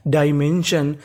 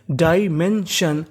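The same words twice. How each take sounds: First: Said in the usual way. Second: "डायमेंशन" in slow separate syllables, डाय-मेन-शन. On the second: Shown as a demonstration. Teacher showing students how to read डायमेंशन, slowly syllable by syllable. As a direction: break "डायमेंशन" into drawn-out parts. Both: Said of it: "तो meaning क्या बनी?".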